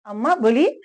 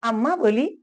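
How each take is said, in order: Both takes have the same delivery.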